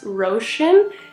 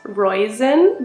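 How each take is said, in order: First: The middle consonant is a 'sh' sound. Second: The middle consonant is a plain 's' sound. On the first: The speaker calls it right. "but it's actually pronounced Roshin" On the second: The speaker calls it wrong. "which I would pronounce as Roisin"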